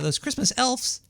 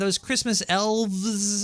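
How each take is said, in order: First: The last word ends with an f sound. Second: The last word ends with a v sound. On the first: "I usually said" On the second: "I never really pronounced it as elves before"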